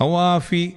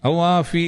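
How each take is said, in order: No difference in how they are said.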